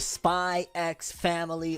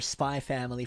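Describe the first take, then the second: First: The letter X is pronounced between the words. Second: The letter X is left silent between the words.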